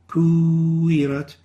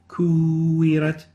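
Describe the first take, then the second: Both takes have the same delivery.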